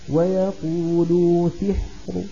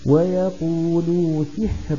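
First: The final r is heavy, with a faint vowel. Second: The final r is light, stopped with silence. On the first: "وقفنا بالروم ... فأقف براء مفخمة" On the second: "السكون المحض مرققة الراء"

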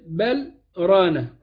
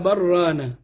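First: There is a brief stop after the first word. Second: The two words run together with no stop. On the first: "لو بتمد المنفصل" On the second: "تقصر المنفصل"

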